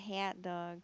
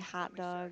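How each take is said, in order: First: The vowel in 'hot' sounds like 'hat'. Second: The vowel in 'hot' sounds like an O. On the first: This mocks how the speaker says it. "he says it sounds like I'm saying hat" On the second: This is how the speaker thinks it sounds. "I say hot dog"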